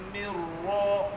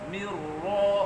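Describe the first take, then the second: The two takes are said the same way.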